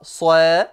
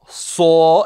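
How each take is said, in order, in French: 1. La syllabe se prononce légère et fine. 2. La syllabe se prononce lourde et profonde. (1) "et non pas soe" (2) "le alif sera également grave"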